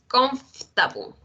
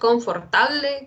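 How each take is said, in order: First: The middle syllable is dropped, making it shorter. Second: Every syllable, including the middle one, is pronounced. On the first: The speaker calls it right. "es comfortable" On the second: The speaker calls it wrong. "No es confortable"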